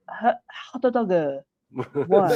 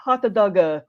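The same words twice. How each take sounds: First: Slow "hot doga" with a final a and a put-on voice; imitating Japanese tourist. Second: "hot doga" with an added a at the end; imitating Japanese tourist. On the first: Imitating a Japanese tourist ordering at the Disneyland window, put-on accent. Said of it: "Japanese tourists come up to your window and order". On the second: A Disneyland worker imitating Japanese tourists ordering, light mock accent. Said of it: "I worked at Disneyland".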